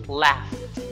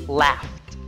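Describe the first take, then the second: Both takes have the same delivery.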